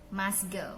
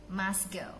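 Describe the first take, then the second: The two takes are said the same way.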